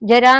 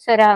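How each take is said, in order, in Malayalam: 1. ഈ വാക്ക് j ശബ്ദത്തിലാണ് തുടങ്ങുന്നത്. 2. ഈ വാക്ക് z ശബ്ദത്തിലാണ് തുടങ്ങുന്നത്. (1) "ജര ജര എന്നല്ല അത് പ്രൊനൗൺസ് ചെയ്യുക" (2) "സെര എന്നാ പറയാ കേട്ടോ"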